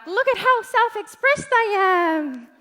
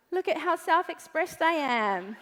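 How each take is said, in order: First: Higher, louder smug boast; mock show-off. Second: Laughing mockery. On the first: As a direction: brag like a showy group post. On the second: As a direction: chuckle through the boast. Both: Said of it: "and you're like".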